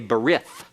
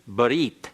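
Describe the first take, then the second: First: The word ends in a TH sound. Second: The word ends in a T sound. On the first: "an anglicized pronunciation that is incorrect Hebrew" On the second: "the Hebrew word for covenant is barit"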